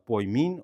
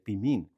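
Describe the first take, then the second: First: The first syllable has an oi diphthong. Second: The first syllable has a plain i vowel. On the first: This is the Erasmian pronunciation of ancient Greek. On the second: This is the modern Greek pronunciation.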